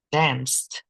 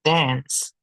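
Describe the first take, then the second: First: "danced" with the final D sound as a crisp t; past tense ending. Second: Said in the usual way. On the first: Shown as a demonstration. Teacher to Spanish-speaking students, modelling a past tense ending. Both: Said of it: "just adding the letter D".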